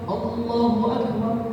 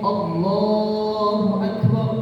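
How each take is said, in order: First: The l sound in Allah is short. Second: The l sound in Allah is long. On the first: The speaker calls it wrong. "Lamnya dibaca pendek" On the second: The speaker calls it right. "lamnya panjang"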